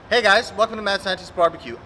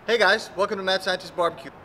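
First: It is said with more energy. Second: It is said with lower energy.

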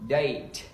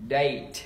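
No difference in how they are said.

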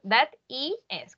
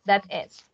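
First: The ending is spelled out letter by letter. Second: The ending is said as one short word. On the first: "Yo los diría deletreados" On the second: "Puede ser que lo digan"

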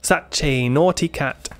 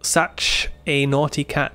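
First: The ch sound runs straight into the next word. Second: The ch sound is said clearly and separately. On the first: "แต่ถ้าพูดเร็วๆ ch จะเชื่อมกับ a" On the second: "อย่าลืมออกเสียง ch นะให้ชัด"

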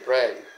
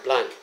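First: The name is said with an R sound. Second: The name is said with an L sound. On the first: The speaker calls it right. "the proper pronunciation" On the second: The speaker calls it wrong. "instead of having the proper pronunciation"

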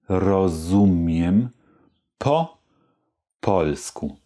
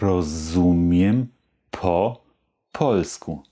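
First: The phrase is spoken slowly. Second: The phrase is spoken somewhat faster. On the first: "Also nochmal langsam" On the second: "Etwas schneller"

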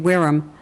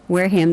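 First: The name is pronounced the English way. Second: The name is pronounced the local American way.

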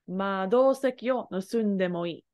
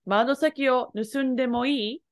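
First: The voice falls at the end like a statement. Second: The voice rises at the end like a question.

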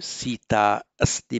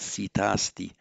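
First: The two a vowels are said separately. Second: The two a vowels merge into one long a.

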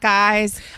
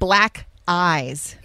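First: The phrase is spoken quickly and casually. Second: The phrase is spoken slowly and carefully articulated.

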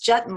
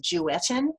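First: The name rhymes with button. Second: The name does not rhyme with button. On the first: The speaker calls it right. "it's Jutton like button" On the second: The speaker calls it wrong.

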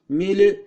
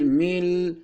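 First: An extra vowel is released after the final consonant. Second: The word ends cleanly on the final consonant. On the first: The speaker calls it wrong. "mili değil" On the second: The speaker calls it right. "değil mil"

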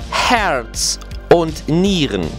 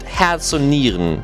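First: It is said with an English-sounding accent. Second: It is said with a German accent. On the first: The speaker calls it wrong. "my German sounds a little bit more English than it should be" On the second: The speaker calls it right. "To say it right in German"

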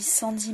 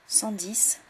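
First: The final S sound of 'dix' is silent. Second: The final S sound of 'dix' is heard.

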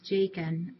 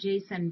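First: The name is said like Jakin. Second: The name is said like Jason. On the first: The speaker calls it right. "but it's Jakin" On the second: The speaker calls it wrong. "I have been pronouncing it Jason"

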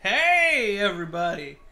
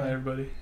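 First: It is said with high, excited energy. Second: It is said with calm, low energy.

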